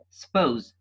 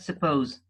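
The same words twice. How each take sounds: First: The word is squeezed into one syllable. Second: The word is said with two full syllables. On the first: "the schwa is missed out in the word is said with one syllable" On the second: "not suppose"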